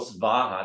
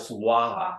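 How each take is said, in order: First: The second sound is a V sound. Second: The second sound is a W sound. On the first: The speaker calls it wrong. "They don't go svaha" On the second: The speaker calls it right. "they go swaha"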